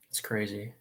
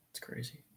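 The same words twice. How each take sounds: First: Said in the usual way. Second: "It's crazy" breathed out as a whisper, higher and far softer; half-voiced whisper of "It's crazy". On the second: Real, not acted. Repeats the phrase, whispered.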